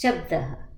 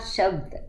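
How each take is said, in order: First: The word ends with an added 'ah' sound. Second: The word ends abruptly on the d sound. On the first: The speaker calls it right. "It's shabdah" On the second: The speaker calls it wrong. "It's not shabd"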